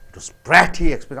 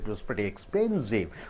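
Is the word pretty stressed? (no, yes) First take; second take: yes; no. First: The word pretty carries strong stress. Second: The word pretty carries no strong stress. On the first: The speaker is not satisfied with it. "when you stress on pretty, you are not comfortable with that" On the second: The speaker is fine with it. "So you're quite all right"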